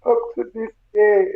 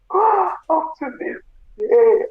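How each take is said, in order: First: Said in the usual way. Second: Gasping, slow, higher and cracking; the words break apart in a real sob; breaking into tears. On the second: Real, not acted. Grieving mother to listeners, voice breaking into real tears.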